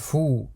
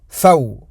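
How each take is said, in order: First: A single long 'oo' vowel, like 'foo'. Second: An 'a' vowel glides into 'w', like 'faw'. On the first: The speaker calls it wrong. "Et non pas" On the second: The speaker calls it right. "Car on a une fatha, une soukoun sur le waw"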